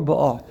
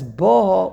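First: Ba'a stressed on the final "a"; stress on last syllable. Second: Ba'a stressed on the opening "Ba", the second syllable light; stress on first syllable. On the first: Teacher contrasts two readings for the class, Ba'a stressed on last syllable. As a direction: let the second syllable of Ba'a carry the accent. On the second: Teacher contrasts two readings for the class, Ba'a stressed on first syllable. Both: Shown as a demonstration. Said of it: "it makes a difference".

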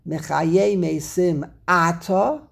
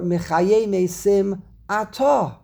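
First: Slow reading, "Ata" stressed AH-ta; stress on first syllable. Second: Slow reading, "Ata" stressed a-TA; stress on last syllable. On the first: Teacher asking how it's said in davening, slow front-stressed "Ata". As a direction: recite slowly, hitting the first syllable of "Ata". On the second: Teacher giving the alternative from davening, slow end-stressed "Ata". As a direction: recite slowly, landing on the end of "Ata". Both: Shown as a demonstration. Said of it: "What do you say in davening?".

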